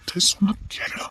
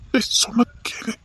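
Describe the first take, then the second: First: Urgent whisper. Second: Slow, urgent whisper. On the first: Friend holds back drunk man. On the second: Friend holding back the drunk man, urgent whisper. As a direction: hush him so nobody hears. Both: Acted.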